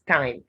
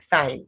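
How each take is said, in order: First: The word begins with a plain 't' sound. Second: The word begins with a 'th' sound. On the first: The speaker calls it right. "rather, you have the sound t" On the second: The speaker calls it wrong. "That spice is not thyme"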